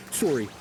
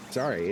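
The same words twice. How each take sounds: First: "Sorry" with a rounded "oh" vowel, SORE-ee; mock-Canadian "Sorry", first syllable like "sore". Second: Said in the usual way. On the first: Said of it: "And he's like". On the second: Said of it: "he's like, "Sorry".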